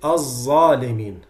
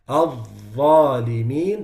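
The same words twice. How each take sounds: First: The first consonant is a heavy z-like sound. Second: The first consonant is a heavy th-like sound. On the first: The speaker calls it wrong. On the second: The speaker calls it right.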